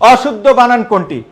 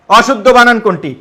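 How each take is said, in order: Both takes have the same delivery.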